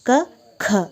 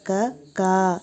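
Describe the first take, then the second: First: The second syllable has a strong puff of air. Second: The second syllable has no puff of air. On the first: The speaker calls it right. "ಎರಡನೇ ಖ ಅದು ಮಹಾಪ್ರಾಣ" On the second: The speaker calls it wrong. "ಆದರೆ ಅವರು ಕಾ ಅಂತ ಹೇಳ್ತಾರೆ"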